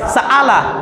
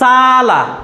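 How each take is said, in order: First: It has a full glottal catch between vowels. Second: It has one long vowel with no catch. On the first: "যদি অ্যাপ্রোপ্রিয়েট হামজার উচ্চারণ করি তাহলে এটা উচ্চারণ হবে সাআলা" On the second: "যদি হামজা না থেকে আলিফ থাকতো তাহলে উচ্চারণটা কি হতো সালা"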